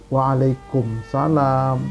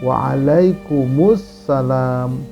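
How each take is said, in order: First: It is said without the article before salam. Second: It is said with the article before salam. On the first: The speaker calls it wrong. "Ini juga tidak benar, salah" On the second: The speaker calls it right. "Dikembalikan alif lamnya, alif lam samsiyahnya"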